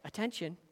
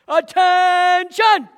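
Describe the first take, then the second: First: The word is said quietly and politely. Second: The word is shouted loudly and sharply. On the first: It is a gentle request. The speaker calls it wrong. "they don't say it" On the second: It is a command to obey at once. The speaker calls it right. "they shout it. They yell it out"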